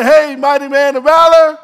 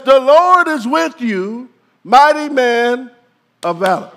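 First: Breezy offhand hey; casual hey mighty man of valor; casual greeting. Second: Solemn the Lord is with you; solemn declaration. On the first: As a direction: toss it off casually. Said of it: "He doesn't come up to him and say". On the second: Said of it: "He says". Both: Shown as a demonstration.

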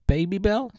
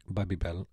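First: Put-on "Babybel" said as BAY-bee-bel, rising; long-A Babybel. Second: Put-on "Babybel" said as BAB-ee-bel; short-A Babybel. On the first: Host mocking the other way, "Babybel" as rising BAY-bee-bel. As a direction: say "Babybel" with a long AY, lifting at the end. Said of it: "everyone in the world would call it". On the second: Host defending his own way, "Babybel" as BAB-ee-bel. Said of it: "you say it wrong". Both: Shown as a demonstration.

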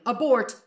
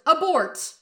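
First: Louder, higher call to abort; mock panic call. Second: Higher, louder frantic yell; panicked yell. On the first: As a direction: sound the alarm on yourself. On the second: Acted. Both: Sokka panics at his own thought.

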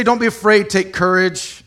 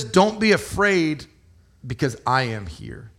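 First: Higher, louder breezy reassurance; louder, higher casual version; dismissive brush-off. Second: Earnest reassurance. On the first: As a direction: toss it off like it's no big deal. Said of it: "He didn't say". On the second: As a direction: say it gently, like a promise of presence. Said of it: "He says". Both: Retold or imitated.

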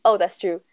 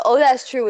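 First: A light impression of Harry, a touch too quick. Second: Said in the usual way. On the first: Friend mimicking Harry, but a bit too quick for him. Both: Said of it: "is way too fast for Harry".

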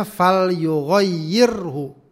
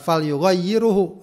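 First: "fal yughayyirhu" slow, with "hu" right after the "r"; correct reading. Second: "fal yughayyiruhu" with an extra "u" after "r"; wrong reading. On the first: Teacher to students, slowly reading "fal yughayyirhu" the right way. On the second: Teacher to students, showing the wrong "yughayyiruhu". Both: Shown as a demonstration.

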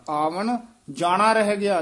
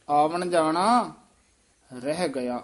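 First: ਆਵਣ ਜਾਣਾ ਰਹਿ ਗਿਆ run together without a pause; wrong run-on reading. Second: Slow ਆਵਣ ਜਾਣਾ, pause, then ਰਹਿ ਗਿਆ; pause after ਜਾਣਾ. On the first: Teacher shows students the wrong run-on reading. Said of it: "ਨਹੀਂ ਕਹਿਣਾ". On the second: Teacher shows students the pause, slowly. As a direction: break the phrase after ਜਾਣਾ. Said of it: "ਇਹ ਸੰਬੰਧਕ ਪਾਠ ਹੈ". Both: Shown as a demonstration.

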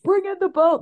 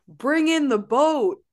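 First: Mimicking Jeff. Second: Imitating Jeff. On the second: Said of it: "He also starts the scene by going".

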